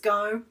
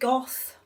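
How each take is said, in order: First: The name ends with an open vowel sound. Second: The name ends with a consonant sound. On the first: "but normally it's" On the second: "You can pronounce it"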